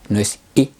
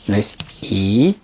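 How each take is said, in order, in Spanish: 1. La vocal se corta muy corta. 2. La vocal se sostiene larga. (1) "no es corta" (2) "no es larga"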